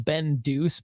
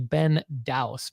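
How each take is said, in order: First: The surname is said like the word deuce. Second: The surname is said like the word douse. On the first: A playful nickname version of the name. The speaker calls it wrong. "I kind of purposely mis- mispronounce your name" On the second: The name as it is really pronounced. The speaker calls it right. "but it's actually Ben Douse"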